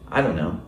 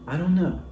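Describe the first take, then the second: First: The phrase is said in a rude tone. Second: The phrase is said in a nice tone. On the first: The speaker is annoyed or dismissive. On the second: The speaker is friendly and means no offense.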